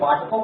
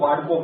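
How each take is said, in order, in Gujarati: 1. વચ્ચેનો વ્યંજન t અવાજ છે. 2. વચ્ચેનો વ્યંજન d અવાજ છે. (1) "આપણે વાટકો કહીએ" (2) "એ લોકો વાડકો બોલે"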